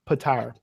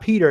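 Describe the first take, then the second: First: The name sounds like 'Patara'. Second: The name sounds like 'Peter'. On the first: The speaker calls it right. "That's how they pronounce it in the book" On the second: The speaker calls it wrong. "it's not Peter"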